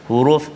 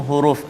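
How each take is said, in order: No difference in how they are said.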